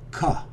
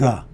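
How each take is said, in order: First: It begins with a K sound, far back. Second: It begins with a hard G sound. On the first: "More of a K sound. This sound is essentially made further back in the throat" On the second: "As in the English letter goof"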